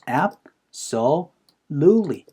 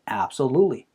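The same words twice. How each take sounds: First: The word carries two strong stresses. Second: The word carries only one strong stress. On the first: The speaker calls it right. "두 번 강세가 찍혀요" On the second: The speaker calls it wrong. "absolutely가 아니에요"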